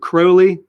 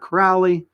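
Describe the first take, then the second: First: The first syllable rhymes with holy. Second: The first syllable does not rhyme with holy. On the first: The speaker calls it right. "He says Crowley rhymes with holy" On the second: The speaker calls it wrong. "not Crowley"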